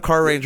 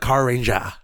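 First: It is said in a plain American accent. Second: It is said in a Japanese accent. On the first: "instead of Car Ranger" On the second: "You can say it in a Japanese accent"

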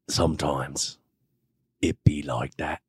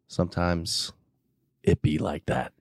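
First: It is said in a put-on British accent. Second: It is said in the speaker's normal accent.

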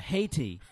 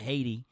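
First: It is said slowly with a clear T sound. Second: It is said quickly with a D-like middle sound. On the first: The speaker calls it right. "So you slow it down. Yeah" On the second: The speaker calls it wrong. "if you say it with just quickly, it sounds like it's got a D in it"

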